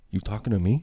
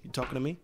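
First: Quoting Travis, plain. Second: Softer mumbled movie line; quiet Travis quote. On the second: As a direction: echo the famous line under the breath. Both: Retold or imitated. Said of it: "the famous".

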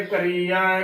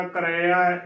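First: ਕਰੀਆ with long "ee"; wrong pronunciation. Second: ਕਰੇਆ with "re", no long ee; short middle vowel in ਕਰੇਆ; correct pronunciation. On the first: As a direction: say ਕਰੀਆ as "ka-ree-ya". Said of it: "ਗਲਤ ਉਚਾਰਨ ਹੋਵੇਗਾ". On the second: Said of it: "ਇਸ ਦਾ ਸ਼ੁੱਧ ਉਚਾਰਨ ਹੈ". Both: Shown as a demonstration.

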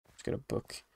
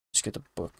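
First: Soft unvoiced whisper. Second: Said in the usual way. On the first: Shown as a demonstration. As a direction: breathe it like a secret. Repeats line, second whispered.

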